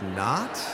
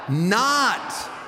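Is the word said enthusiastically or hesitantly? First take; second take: hesitantly; enthusiastically. First: The word is said hesitantly, like a puzzled question. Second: The word is said firmly with strong enthusiasm. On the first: The speaker calls it wrong. "Some of you are not doing this with enthusiasm. You're like" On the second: The speaker calls it right. "let's try it with more enthusiasm, like you mean it"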